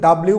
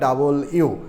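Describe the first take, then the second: First: The name is squeezed into two syllables. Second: The name is said in three syllables. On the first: The speaker calls it wrong. "এটা কিন্তু ডাব্লিউ বলা যাবে না" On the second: The speaker calls it right. "বলতে হবে ডাবল ইউ"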